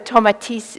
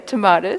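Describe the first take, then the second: First: The name is pronounced the French way. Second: The name is pronounced the English way. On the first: The speaker calls it right. "Tomatis is how you pronounce it" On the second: The speaker calls it wrong. "We've sort of butchered his name a little bit, the English. So we all say tomatoes"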